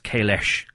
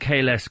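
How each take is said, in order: First: The name is said as Kailesh. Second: The name is said as Kahless. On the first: This is the name as changed in the newer show. The speaker calls it wrong. "they call Kahless Kailesh" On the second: This is the name as said in the older shows. The speaker calls it right. "Kahless was said in Next Generation"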